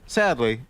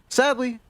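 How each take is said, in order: First: It is said in a somber, lowered tone. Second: It is said in an upbeat, lively tone. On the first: The speaker calls it right. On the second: The speaker calls it wrong.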